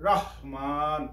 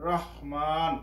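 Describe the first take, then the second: Both takes have the same delivery.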